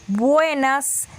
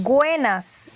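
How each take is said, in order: First: Said in the usual way. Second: "güenas", buenas with a g. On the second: Shown as a demonstration. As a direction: say "güenas" with a g at the start, slowly. ("güenas" con g inicial) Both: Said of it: "en vez de decir buenas".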